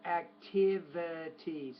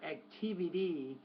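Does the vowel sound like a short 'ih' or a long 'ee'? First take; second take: short ih; long ee. First: The vowel is a short 'ih' sound. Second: The vowel is a long 'ee' sound. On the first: The speaker calls it right. "but activity. So it" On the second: The speaker calls it wrong. "not activity ... not e"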